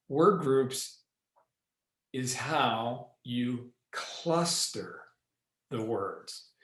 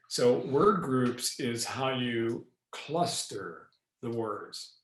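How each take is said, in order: First: "Word groups" / "is how you cluster" / "the words" split by long pauses; four word groups. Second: "So word groups is how you cluster the words" said slowly in clusters; slow grouping of "word groups" and "the words". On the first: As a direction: pause between each group, "the words" last and set apart. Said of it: "I actually broke that down into four word groupings". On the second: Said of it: "And I just did it for you". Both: Shown as a demonstration.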